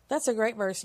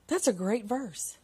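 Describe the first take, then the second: First: Said in the usual way. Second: Softly savoring it, slowed down; hushed, slow appreciation; soft, slow, awed aside. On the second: Real, not acted. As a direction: breathe it out in quiet awe.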